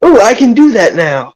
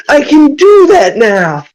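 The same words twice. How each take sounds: First: Higher, excited exclamation; excited realisation. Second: High, drawn-out triumphant shout; excited shout. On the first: Player realises he can do a medicine check, excited. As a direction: burst out with a sudden discovery. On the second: Player crows again about his new ability, excited shout. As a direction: stretch it out, crowing with excitement. Repeats it, bigger. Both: Acted.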